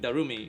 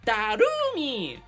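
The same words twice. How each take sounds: First: It is said smoothly in a normal voice. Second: Each syllable is punched out, high-pitched.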